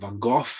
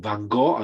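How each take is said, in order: First: The name is said in a British accent. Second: The name is said in an American accent. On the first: "as you say in British English" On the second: "as you say in American"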